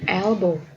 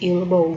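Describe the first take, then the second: First: The first vowel is an 'e' sound. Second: The first vowel is not an 'e' sound. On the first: The speaker calls it right. "Eh ini dibacanya tetap e ya" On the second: The speaker calls it wrong. "nggak jadi elbow gitu enggak"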